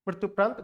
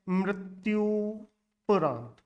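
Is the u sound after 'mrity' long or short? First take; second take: short; long. First: The u sound after 'mrity' is short. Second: The u sound after 'mrity' is long. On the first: The speaker calls it wrong. "मृत्युपरांत गलत है।" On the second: The speaker calls it right. "शुद्ध शब्द है"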